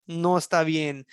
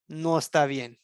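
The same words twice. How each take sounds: The two takes are said the same way.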